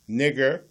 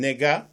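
First: The word ends with an 'er' sound. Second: The word ends with an 'ah' sound.

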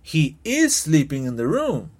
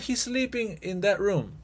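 First: The word 'is' is strongly stressed. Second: The word 'is' is contracted and unstressed.

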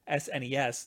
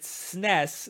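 First: It is spelled out letter by letter. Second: It is said as one single word. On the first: "then then you say an SNES" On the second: "then it would be a SNES"

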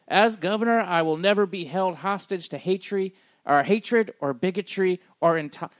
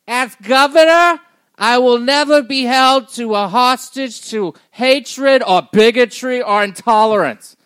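First: It is read in his own plain voice. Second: It is read in a put-on Jewish voice.

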